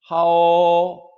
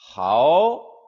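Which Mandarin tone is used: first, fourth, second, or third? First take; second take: first; second. First: The pitch stays high and level. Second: The pitch rises from middle to high.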